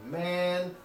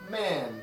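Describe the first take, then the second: First: The pitch rises from a high level. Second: The pitch falls sharply from high to low. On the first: "Chinese has a high rising tone similar to ours" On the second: "And Chinese has a falling tone"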